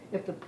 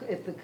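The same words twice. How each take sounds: The two takes are said the same way.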